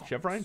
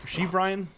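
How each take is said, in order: First: Chev said with short e, quietly rising; trying a pronunciation. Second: Sheev said with a long ee, questioning; trying a pronunciation. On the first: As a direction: tries Chev Ryan as Chev, a question. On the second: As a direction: tries Sheev Ryan as Sheev, rising. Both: Real, not acted.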